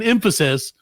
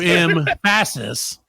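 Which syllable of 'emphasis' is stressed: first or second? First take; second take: first; second. First: The stress is on the first syllable. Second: The stress is on the second syllable. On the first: "instead of saying emphasis" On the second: "you emphasize the second syllable"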